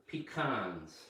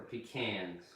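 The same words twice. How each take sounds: First: Pecans as pih-KAHNZ; variant pronunciation. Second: Pecans as pih-KANZ; alternative pronunciation. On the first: Teacher showing learners one way to say it, pecans as pih-KAHNZ. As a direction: say pecans with an open "ah" in the second syllable. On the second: Teacher showing learners the other way to say it, pecans as pih-KANZ. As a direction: say pecans with the "a" of "can" in the second syllable. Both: Shown as a demonstration. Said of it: "pronounce them any way you want".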